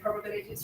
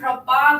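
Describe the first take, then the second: First: It is said with an English accent. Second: It is said with a French accent. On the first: "in English we pronounce it like probabilities" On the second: "in French ... he kept saying probab this"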